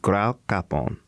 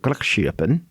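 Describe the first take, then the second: First: The second half sounds like 'kappen'. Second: The second half sounds like 'schippen'. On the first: The speaker calls it right. "The correct pronunciation is Graukappen" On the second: The speaker calls it wrong. "He pronounced it Grachschippen, which is wrong"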